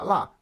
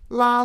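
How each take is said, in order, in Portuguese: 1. O tom cai bruscamente do alto para o baixo. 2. O tom fica alto e nivelado.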